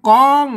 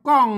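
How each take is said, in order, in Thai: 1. กองออกเสียงสามัญ 2. กองออกเสียงโท (1) "เสียงสามัญนะครับ" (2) "เสียงโทปกตินะครับ"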